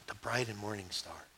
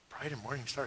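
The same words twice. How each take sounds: First: Low, very soft reply; hushed solemn answer. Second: Very soft, wavering puzzled repeat; puzzled echo. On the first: Believer answering a question about star signs, low and hushed. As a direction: drop right down and answer quietly. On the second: Stranger repeating the odd star sign back, softly baffled. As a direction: echo it under your voice, baffled. Acted listener repeats it in disbelief. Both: Acted.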